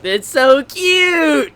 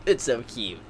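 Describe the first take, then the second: First: High, drawn-out squeal on "cute"; gush, stretching the words upward. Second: Low, soft murmur of adoration; quietly gushing. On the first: Fan looking at pictures in the book, gushing squeal. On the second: Fan looking at pictures in the book, quietly gushing. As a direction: say it small, nearly to yourself. Same words after the squeal, subdued. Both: Real, not acted.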